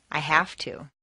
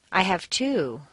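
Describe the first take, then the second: First: "have" stressed, "to" weak. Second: "two" stressed with a falling tune. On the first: Answering why work so hard, stress on have. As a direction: lean on "have", let "to" fade. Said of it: "Why do you work so hard?". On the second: Answering how many kids, stress on two. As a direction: land hard on "two". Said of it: "How many kids do you have?". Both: Shown as a demonstration.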